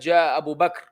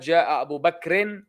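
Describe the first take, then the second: First: Bakr ends on the bare consonant r. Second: Bakr ends with a short i vowel. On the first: The speaker stops after the name. "without the uh, tashkil at the end" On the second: The sentence continues after the name. "so it ends with a kasra"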